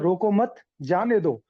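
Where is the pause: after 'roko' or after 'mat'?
after mat. The pause comes right after 'mat'. Do not stop the person; let them go. "इसका मतलब होता है कि रोको मत, अब इसको जाने दो।"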